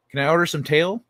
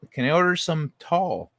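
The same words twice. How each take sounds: First: Australian accent joke. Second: Said in the usual way. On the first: Shown as a demonstration. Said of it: "Aussie pun, tail for tall". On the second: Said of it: "corrected plain reading".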